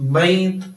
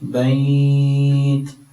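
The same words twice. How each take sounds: First: The vowel before the final consonant is short. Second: The vowel before the final consonant is lengthened. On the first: The speaker calls it wrong. "ഇങ്ങനെ നിർത്തരുത്" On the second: The speaker calls it right. "അല്പം നീട്ടിയിട്ട്"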